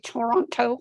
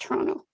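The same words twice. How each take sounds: First: Every syllable is clearly pronounced. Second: The word is clipped and shortened.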